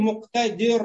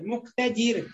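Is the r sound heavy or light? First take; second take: heavy; light. First: The r is pronounced heavy and thick. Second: The r is pronounced light and thin. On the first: The speaker calls it wrong. "Вот здесь не говорим мук-та-дир. Ро-ро. Не должна быть широкая" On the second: The speaker calls it right. "Ри. Как в русском языке дверь"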